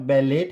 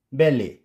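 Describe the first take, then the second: First: "ballet" as BEL-ET, final T pronounced; wrong sounded T. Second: "ballet" as BEL-AY, no T; silent final T. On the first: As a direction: end "ballet" on a hard T. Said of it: "It's not ballet". ("ballet" के अंत में टी बोलकर) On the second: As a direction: end "ballet" on an ay vowel. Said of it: "it's ballet". ("ballet" को बैले, टी silent) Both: Shown as a demonstration.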